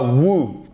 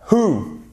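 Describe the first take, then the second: First: "who" said as "woo", no h; wrong pronunciation. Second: "who" with an h sound, "hoo"; correct pronunciation. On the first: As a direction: show the mistake, "who" with a w. (« who » mal prononcé, « wou ») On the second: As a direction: model "who" starting on a breath of h. (« who » avec un h soufflé) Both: Shown as a demonstration. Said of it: "Who et pas who".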